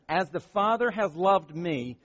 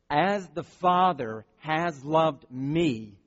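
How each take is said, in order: First: The phrase is read at a fast pace. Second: The phrase is read at a slow pace. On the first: "I read that fast" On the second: "I want to read it slow"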